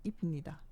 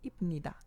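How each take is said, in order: Both takes have the same delivery.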